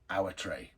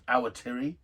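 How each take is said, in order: First: The name ends with an 'ay' sound. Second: The name ends with an 'ee' sound. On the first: This is how most locals the speaker knows say it. "as I pronounce it, because most of the Kiwis I know pronounce it this way" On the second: This is how some other people say it. "depending on who you are, is pronounced Awatiri"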